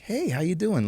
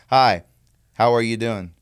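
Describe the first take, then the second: First: It is acted with lively expression. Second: It is read flatly, without acting.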